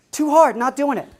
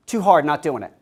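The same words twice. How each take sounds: First: Put-on high, stubborn six-year-old, much higher pitch; defiant child, high. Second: Put-on defiant child. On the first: Father imitates his daughter refusing the test, high and defiant. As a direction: squeak it out like a defiant little girl. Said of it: "Right to the teacher's face". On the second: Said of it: "this precocious six-year-old says".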